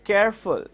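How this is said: The two syllables are run together. The speaker calls it wrong. "when you have an uninterrupted sound in between"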